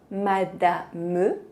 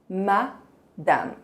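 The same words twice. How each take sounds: First: The final e is clearly pronounced. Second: The final e is almost silent. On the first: The speaker calls it wrong. "Não vamos pronunciar madame" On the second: The speaker calls it right. "vamos dizer madame"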